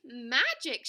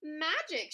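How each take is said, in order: First: Loud delighted exclamation; shouting. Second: Higher delighted exclamation; shouting. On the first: Pecan echoing the other squirrel's wonder, shouting. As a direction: echo the shout louder. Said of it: "shouted Pecan". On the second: Hickory seeing nuts pop up everywhere, shouting. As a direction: shout it in wonder. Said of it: "shouted Hickory". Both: A narrator's reading.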